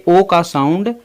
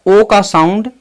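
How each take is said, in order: No difference in how they are said.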